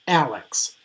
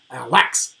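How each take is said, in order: First: Alex as AL-ex, falling; initial stress. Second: Alex misread as a-LEX; wrong final stress. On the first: Teacher lists colleagues' names correctly, Alex stressed on AL. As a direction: stress the first syllable of Alex. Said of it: "have an initial stress". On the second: Teacher shows what sounds wrong, Alex stressed on LEX. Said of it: "it would not sound right to call". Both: Shown as a demonstration.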